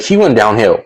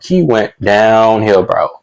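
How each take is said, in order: First: Said in the usual way. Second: "downhill" drawn out slowly for emphasis; emphatic drawl. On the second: Real, not acted. Stressing to viewers how bad it got, "downhill" drawn out. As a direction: stretch "went downhill" slowly, driving it home.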